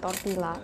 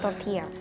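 First: The double L is pronounced as an L sound. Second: The double L is pronounced like a Y sound. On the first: The speaker calls it wrong. "Ini bukan tortilla" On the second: The speaker calls it right. "double L dibacanya mirip Y"

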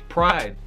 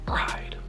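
First: The word is said loudly and boldly. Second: The word is said softly and hesitantly. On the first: The word is declared openly and with conviction. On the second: The word is treated like a forbidden cuss word.

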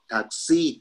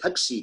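First: The pitch rises at the end of the word. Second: The pitch does not rise at the end.

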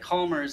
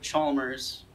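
First: The name begins with a k sound. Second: The name begins with a ch sound. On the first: The speaker calls it right. "I'm going to go ahead and pronounce that Calmers" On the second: The speaker calls it wrong. "instead of Chalmers. ... Chalmers just sounds weird"

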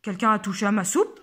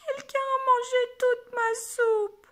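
First: It is said in a big deep voice. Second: It is said in a small crying voice.

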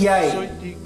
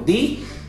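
First: Both words are said in full, two syllables. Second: It is shortened to a single syllable. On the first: "lo normal es de ahí" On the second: "lo pronunciamos diferente, también se puede ver como di"

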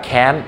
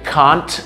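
First: It is said in an American accent. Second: It is said in a British accent. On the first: "สำเนียงอเมริกา" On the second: "สำเนียงอังกฤษ"

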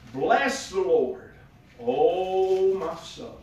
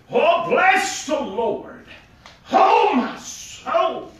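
First: It is read in a plain, ordinary way. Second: It is read in an old Southern preacher style.

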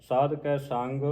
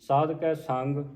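Both takes have the same delivery.

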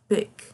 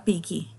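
First: The word ends cleanly on the final consonant. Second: The word ends with an added vowel sound. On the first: The speaker calls it right. "a gente fala pick" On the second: The speaker calls it wrong. "Aí não fala picky"

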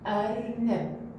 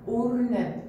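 First: The word begins with the vowel a. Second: The word begins with the vowel u. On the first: The speaker calls it right. "إذا اختارينا حرف الألف عليه فتحة راح نقول أ" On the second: The speaker calls it wrong. "وإذا اختارينا حرف الألف عليه الضمة راح يصير أو"

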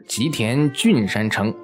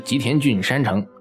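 First: The name breaks after 吉田, grouping 郡山城 together. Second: The name breaks after 吉田郡, grouping 山城 together. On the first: The castle is on Mount Koriyama in the Yoshida area. The speaker calls it right. "这个一定是吉田郡山城" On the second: The castle is a mountain castle in a Yoshida district. The speaker calls it wrong. "不是吉田郡山城。这个安义国呀也没有吉田郡"

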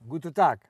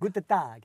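First: It is said with a Russian accent. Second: It is said with an Italian accent. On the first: "Russisch, ne? Olga" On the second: "Mach nochmal Italienisch"

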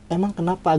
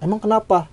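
First: The question is asked in a soft, gentle tone. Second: The question is asked in an angry, sharp tone. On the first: It is a polite, curious question. "Kalau intonasinya emang kenapa agak lembut kan nanya gitu kan" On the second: It means a hostile 'what's your problem?'. "adanya kayak kemarahan gitu. Maksudnya emang ada apa sih"

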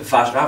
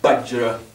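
First: The word begins with a soft V sound. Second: The word begins with a hard B-like sound. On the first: "au lieu de dire Vajra" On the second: "vont dire Bajra. Parce qu'ils percutent le V"

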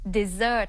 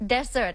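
First: The stress is on the second syllable. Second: The stress is on the first syllable. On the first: It means a sweet food like ice cream. "stress หรือว่าเน้นหนักที่พยางค์ที่สอง" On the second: It means a dry, sandy land. "stress นะคะหรือเน้นหนักที่พยางค์แรกค่ะ"

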